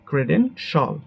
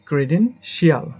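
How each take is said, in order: First: The ending is said as one syllable, shal. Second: The ending is said as two syllables, shee-al. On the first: The speaker calls it right. "But এটা হবে আমাদের" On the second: The speaker calls it wrong. "এটাকে আমরা বলি"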